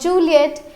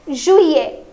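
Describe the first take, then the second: First: It is said with an L sound, like Juliet. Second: It is said without an L sound, like zhwee-yay. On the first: The speaker calls it wrong. "and not Juliet" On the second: The speaker calls it right. "It is Juillet"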